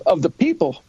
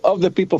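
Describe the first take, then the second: First: The stress falls on the word people. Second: The stress falls on the word of. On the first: The government belongs to the people themselves. The speaker calls it right. "No, it was" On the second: The focus is on the relation, not the people. The speaker calls it wrong. "not the way you hear it in school"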